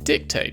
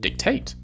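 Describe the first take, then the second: First: The stress is on the first syllable. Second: The stress is on the last syllable. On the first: "In America we see an emphasis on the first syllable" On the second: "in Britain the emphasis is often on the last syllable"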